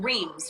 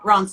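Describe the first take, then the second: First: It is said with a plain English reading. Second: It is said with a French-sounding pronunciation. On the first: A first guess made before hearing it locally. The speaker calls it wrong. "it's not Reims" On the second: A respectful version that still suits an American audience. The speaker calls it right. "an American version, but still sounds French"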